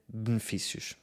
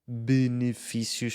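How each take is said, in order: First: The unstressed E is dropped from the word. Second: The unstressed E is pronounced as a vowel.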